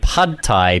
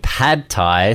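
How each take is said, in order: First: The first word has the vowel of 'cup'. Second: The first word has the vowel of 'cat'. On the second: "so P-A-D?"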